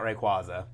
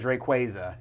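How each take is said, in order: First: The middle part does not sound like quasar. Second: The middle part sounds like the word quasar. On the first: This is the common but unofficial pronunciation. The speaker calls it wrong. "not Rayquaza" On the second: This is the officially confirmed pronunciation. The speaker calls it right. "they did finally confirm it is Rayquaza"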